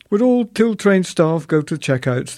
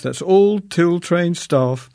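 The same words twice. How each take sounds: First: Higher, louder announcer voice; tannoy announcement. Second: Slow, drawn-out announcer repeat, raised and louder; slow tannoy repeat. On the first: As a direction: mimic the store tannoy, raised and louder. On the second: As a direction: repeat it slowly like a store tannoy. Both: Retold or imitated.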